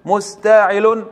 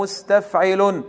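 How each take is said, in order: First: مستعل said slowly with the second sakin dropped; slow demo of the reduced foot مستعل. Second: مستفعل said slowly with every syllable kept, original full form; slow demo of مستفعل before the reduced form; full foot. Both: Shown as a demonstration. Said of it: "ماذا حذفنا من التفعيلة الرئيسة؟".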